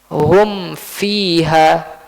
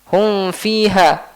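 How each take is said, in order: First: The m is pronounced clearly with lips closed. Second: The m is blurred, lips not fully closed. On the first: The speaker calls it right. "Dibaca dengan tertutup dengan jelas. Mimnya dulu baru masuk ke huruf fa" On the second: The speaker calls it wrong. "sebagian orang baca dengan ikhfa"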